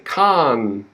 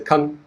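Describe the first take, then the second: First: The syllable is stressed and full. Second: The syllable is quick and reduced. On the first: "First word we say con" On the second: "Second word we say con, con. Quick, very quick"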